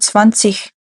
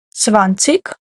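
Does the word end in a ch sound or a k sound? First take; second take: ch sound; k sound. First: The word ends with a soft ch sound. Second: The word ends with a hard k sound. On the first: "так ціх" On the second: "Це закінчення ви можете читати як цік"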